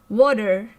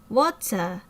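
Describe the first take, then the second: First: It is pronounced with an American accent. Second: It is pronounced with a British accent. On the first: The speaker comes from America. "the person is an American because they have American way of pronouncing this word" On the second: The speaker comes from England. "that person has British way of pronouncing this word"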